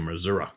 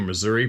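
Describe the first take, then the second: First: It is said the southeast Missouri local way. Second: It is said in the speaker's usual way.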